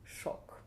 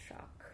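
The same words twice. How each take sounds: First: "Shock" with a rounded o, softly; Russian o. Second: "Shock" with an open English ah-like vowel, softly. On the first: Teacher showing learners the Russian word, rounded o. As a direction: round the vowel of "Shock" into a pure o. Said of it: "But with an O". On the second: Teacher comparing English with Russian for learners, English vowel. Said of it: "It's the same that in English". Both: Shown as a demonstration.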